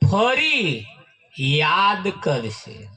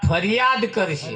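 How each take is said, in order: First: There is a short pause after fari. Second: Fariyad is said quickly without a pause.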